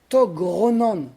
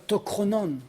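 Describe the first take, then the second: First: A voiced G sound comes before Ronan. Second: A voiceless K sound comes before Ronan. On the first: The speaker calls it right. "on va dire togronan" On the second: The speaker calls it wrong. "pas tokronan"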